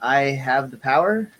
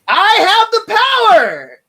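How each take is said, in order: First: It sounds hesitant and questioning. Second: It sounds confident and forceful.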